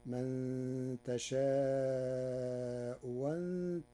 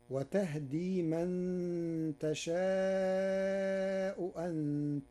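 First: تشاء أنت said tasha'u wanta, second hamza becomes an open waw; hamza turned to waw. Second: Very slow, high, chanted تشاء أنت; chanted, draw the verse out in recitation; slow Quran chant. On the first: Teacher chanting Warsh: تشاء with the waw. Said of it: "بإبدال الهمزة الثانية واوا مفتوحة". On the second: Reciter quotes the verse: slow high chant. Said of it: "قرأ ورش كلمتي تشاء أنت". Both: Shown as a demonstration.

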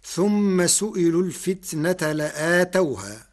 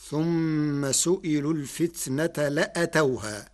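First: لآتوها said with a long a after the hamza, la'atawha; long vowel after the hamza in لآتوها; reading with long alif. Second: لأتوها said without the alif after the hamza, la'tawha; short vowel after the hamza in لأتوها; Warsh reading. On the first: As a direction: recite the verse stretching the alif in لآتوها. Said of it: "قرأ ورش كلمة لآتوها". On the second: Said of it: "بحذف الألف بعد الهمزة". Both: Shown as a demonstration.

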